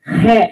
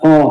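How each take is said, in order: First: The letter name ends in an 'e' vowel. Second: The letter name ends in an 'o' vowel. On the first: This is the older way of calling the letter. "Kalau zaman saya kecil begitu, he manggilnya" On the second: This is the present-day way of calling the letter. "bukan kayak sekarang ho"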